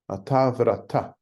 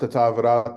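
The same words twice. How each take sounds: First: The last word ends with an audible breathy h. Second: The last word ends on a plain open vowel. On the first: The speaker calls it right. "how to pronounce the Hebrew" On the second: The speaker calls it wrong. "Not ata vrata, which is the way perhaps we would have said it before"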